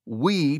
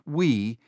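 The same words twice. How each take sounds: First: We said with a light lift and weight; stress on We. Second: Said in the usual way. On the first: A narrator's reading. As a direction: lean into the word We. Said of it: "continued to stress the word "we". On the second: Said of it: "continued to stress the word".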